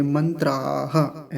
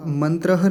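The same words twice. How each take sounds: First: मंत्राह drawn out with a long आ; slow correct form. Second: मंत्रह with a short final vowel; the mistaken मंत्रह; wrong short vowel. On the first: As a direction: stretch the आ in मंत्राह. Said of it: "मंत्राह ऐसे". (मंत्राह धीरे, लंबा आ) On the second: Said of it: "मंत्रह नहीं बोलेंगे". (मंत्रह में छोटा स्वर) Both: Shown as a demonstration.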